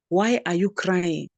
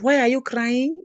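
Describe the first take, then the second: First: The voice falls at the end. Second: The voice rises at the end. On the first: The speaker calls it right. "with the W H words, we have a falling intonation" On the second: The speaker calls it wrong.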